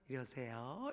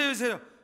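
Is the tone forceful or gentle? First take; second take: gentle; forceful. First: It is said gently and softly. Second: It is said forcefully and urgently.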